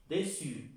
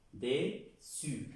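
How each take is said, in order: First: Said in the usual way. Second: "dessus" split in two, de, pause, su; syllable by syllable. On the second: Shown as a demonstration. Teacher drilling the double S, slow syllabified pronunciation. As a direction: say "dessus" slowly in two parts, double S as one hissed S. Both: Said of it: "Pronuncia la doble S como una S".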